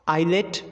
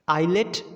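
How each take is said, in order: No difference in how they are said.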